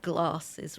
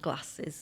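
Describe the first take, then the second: First: It is said in a less northern accent. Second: It is said in a northern accent. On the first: This is how the character says it. "not such a northern accent as mine, so she'd say glasses" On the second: This is how the speaker normally says it. "rather than glasses"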